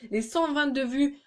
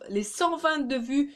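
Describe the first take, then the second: First: It is said in a plain, normal accent. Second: It is said with a put-on accent.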